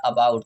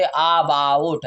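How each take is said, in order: First: "about" with a short, unstressed uh at the start; short-a pronunciation. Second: ABOUT wrongly opened with a long AA; wrong long-aa version. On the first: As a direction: say "about" as uh-BOUT, lower. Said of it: "इसकी एक उच्चारण ये clear हो गई". ("about" छोटे अ से, अबाउट) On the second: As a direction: say "about" as aa-bout, stretching the first vowel. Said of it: "बड़े आ के साथ तो नहीं बोल सकते". ("about" को गलत, लंबे आ से बोलें) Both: Shown as a demonstration.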